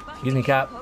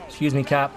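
No difference in how they are said.

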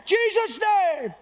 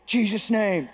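First: Very high, drawn-out mock holler; hammed-up prayer cry. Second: Said in the usual way. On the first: Preacher mocking a showy prayer over a shy man, hollering. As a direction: wail it out slowly for comic effect. Comic exaggerated second take of prayer.

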